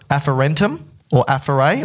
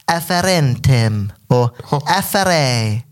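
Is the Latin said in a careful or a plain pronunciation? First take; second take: plain; careful. First: The Latin words are said plainly and casually. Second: The Latin words are said with careful pronunciation.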